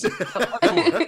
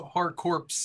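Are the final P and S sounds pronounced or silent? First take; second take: silent; pronounced. First: The final P and S sounds are silent. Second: The final P and S sounds are pronounced. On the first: The speaker calls it right. "It's just core. The P is silent. S is silent" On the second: The speaker calls it wrong. "There's no hard corpse"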